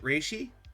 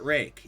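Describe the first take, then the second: First: The name ends with an sh-ee sound. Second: The name ends with a hard k sound. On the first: "Is it Reishi?" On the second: "I've always pronounced it Rake"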